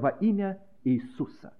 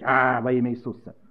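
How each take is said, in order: First: It is said in a quiet calm voice. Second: It is said in a loud roaring voice. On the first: The speaker calls it right. "Я говорю спокойно" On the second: The speaker calls it wrong. "хотят реветь"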